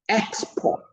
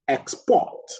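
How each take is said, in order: First: The stress is on the first syllable. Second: The stress is on the second syllable. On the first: It is used as a noun. "a noun, the stress is on the second, the first syllable" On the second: It is used as a verb. "the verb, the stress is on the second syllable"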